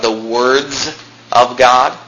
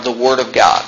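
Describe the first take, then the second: First: WORDS drawn out, then a pause; emphatic plural "words"; stress on WORDS. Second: Said in the usual way. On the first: Shown as a demonstration. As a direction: hold "words" before finishing with "of God". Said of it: "notice the emphasis that God always puts on the words". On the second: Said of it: "Not just God's Word".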